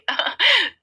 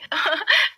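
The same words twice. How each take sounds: First: High nervous laugh falling away; high nervous chuckle that drops off. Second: High nervous giggle rising up; nervous laugh. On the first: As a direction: cover the panic with a laugh, higher. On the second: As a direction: laugh it off, caught out and higher. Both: Acted. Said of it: "घबरा जाती है और हकलाने लगती है".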